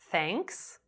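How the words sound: The pitch rises at the end.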